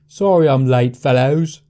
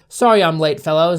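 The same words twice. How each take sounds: First: It is said in a standard English accent. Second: It is said in the speaker's normal accent. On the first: "That's more like a dumbass English person, like Harry Potter" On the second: "I'm just gonna read normally"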